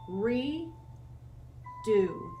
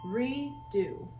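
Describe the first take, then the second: First: The syllables are split apart by a pause. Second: The syllables run together without a pause.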